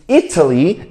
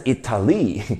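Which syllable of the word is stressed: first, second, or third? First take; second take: first; third. First: The stress is on the first syllable. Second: The stress is on the third syllable.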